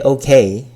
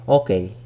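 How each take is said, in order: First: It is said with an English accent. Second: It is said with a Tagalog accent. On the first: The speaker calls it wrong. "When you don't say okay" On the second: The speaker calls it right. "You gotta make it sound Tagalog"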